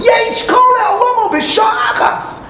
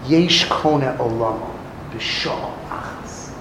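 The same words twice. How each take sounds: First: Triumphant proclamation. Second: Much lower, soft, fading lament of yesh kone olamo b'shah achas; mournful lament. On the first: Rebbe as usually read, triumphant proclamation. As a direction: announce it like a victory. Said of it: "How do we usually interpret". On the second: Rebbe mourning a wasted life, mournful lament. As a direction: say it as a tragedy, almost breathless. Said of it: "Rebbe wasn't complimenting him". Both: Retold or imitated.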